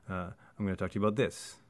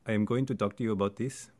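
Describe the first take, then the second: First: Contracted words with reduced, stress-timed rhythm. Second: Uncontracted words with even, syllable-timed rhythm.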